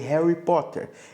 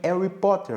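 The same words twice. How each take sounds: First: The initial H sound is clearly pronounced. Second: The initial H sound is left silent. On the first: "ao invés de Harry Potter" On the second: "Eles falam também Harry Potter"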